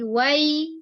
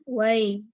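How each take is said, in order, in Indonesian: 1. Kata itu diucapkan penuh dan tegas. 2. Kata itu diucapkan lemah dan terputus. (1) "tapi wai" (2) "usahakan jangan setengah-setengah"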